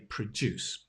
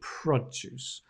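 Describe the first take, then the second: First: The stress is on the second syllable. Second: The stress is on the first syllable. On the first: It is the verb form. The speaker calls it wrong. "being careful you don't say produce" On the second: It is the noun form. The speaker calls it right. "but produce"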